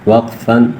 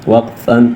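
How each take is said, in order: No difference in how they are said.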